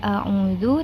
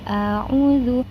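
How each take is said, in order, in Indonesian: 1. Vokal pertama pendek. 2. Vokal pertama dibaca panjang. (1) "ketika kita membaca a'udzu" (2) "bunyi huruf A-nya itu menjadi panjang"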